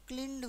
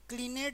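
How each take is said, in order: First: The ending is clipped with no extra syllable. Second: The ending is said as an extra syllable. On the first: The speaker calls it right. "आधा कर दो उसको" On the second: The speaker calls it wrong. "क्लीनेड नहीं होगा"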